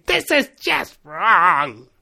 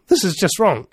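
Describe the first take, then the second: First: Screaming inner voice. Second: Said in the usual way. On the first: Acted. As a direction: stretch it out like a screaming voice in your head. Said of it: "that voice screaming in your head". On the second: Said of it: "You've never had that voice screaming".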